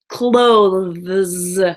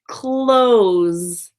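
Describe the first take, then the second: First: The ending has a th sound before the s. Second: The ending is a plain z-like s, no th. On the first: "this word is difficult because of the T H E S ending, the ths" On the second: "pronounce it like close"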